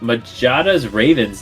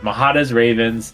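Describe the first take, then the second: First: The name is said with a J sound. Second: The name is said with an H sound. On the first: The speaker calls it wrong. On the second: The speaker calls it right.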